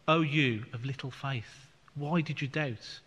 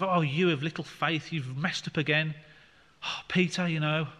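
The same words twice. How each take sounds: First: Loving. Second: A hint of an exasperated telling-off; mock scolding. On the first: Retold or imitated. Jesus to sinking Peter, gentle and loving. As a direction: say it tenderly, as to a frightened friend. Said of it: "Jesus didn't speak like that. He would have been in a more loving way". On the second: Jesus lightly chiding Peter, mild mock exasperation. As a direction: lightly play a fed-up teacher sighing at a pupil. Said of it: "Jesus didn't say it in the sense of".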